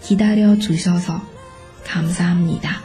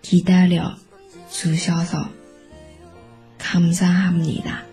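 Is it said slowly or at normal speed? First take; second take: normal speed; slowly. First: It is said at normal speed. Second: It is said slowly.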